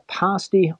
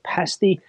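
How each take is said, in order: First: It is said in the speaker's own pronunciation. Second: It is said the way people say it in the UK.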